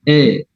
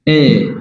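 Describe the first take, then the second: First: The vowel sounds like an 'e'. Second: The same.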